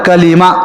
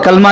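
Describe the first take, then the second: First: It is said as three syllables, ka-lee-ma. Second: It is said as two syllables, kal-ma. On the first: The speaker calls it right. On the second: The speaker calls it wrong. "कलमा नहीं हो"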